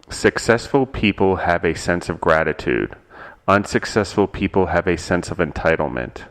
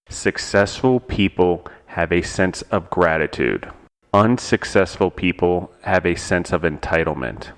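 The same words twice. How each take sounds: First: It is said at a normal pace. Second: It is said slowly, in two pieces.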